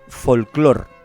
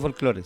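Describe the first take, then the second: First: The word ends with an r sound. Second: The word ends with an e vowel. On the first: This is the common, adapted form. The speaker calls it wrong. "mucha gente dice folclor" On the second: This is the original, universal form. The speaker calls it right. "que sería lo correcto"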